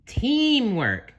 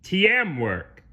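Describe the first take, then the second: First: "Teamwork" high, with one long "tee"; correct pronunciation. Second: "T M work" split as "tee-em work"; mispronounced teamwork. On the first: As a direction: model "Teamwork" clearly in a high voice. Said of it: "gently corrected him". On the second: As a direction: slowly break "team" into two letters. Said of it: "Plankton said". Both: Acted.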